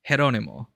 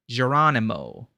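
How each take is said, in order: First: The name is said the Filipino way. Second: The name is said in an American accent. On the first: "In the Philippines, that's" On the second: "in a more typical American accent"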